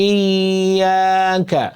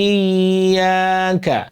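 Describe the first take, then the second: The two takes are said the same way.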